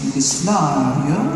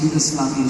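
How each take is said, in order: First: The word is said in an affected, polished way. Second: The word is said in a plain, ordinary way. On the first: This imitates a famous newscaster. "she'd say Yugoslavia" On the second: This is how the speaker would normally say it. "Barbara wouldn't say Yugoslavia"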